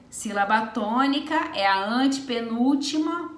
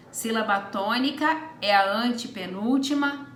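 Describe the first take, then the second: No difference in how they are said.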